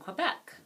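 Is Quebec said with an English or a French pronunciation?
English. It is said with an English pronunciation. "This is the English pronunciation of Quebec"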